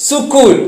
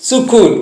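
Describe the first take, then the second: Both takes have the same delivery.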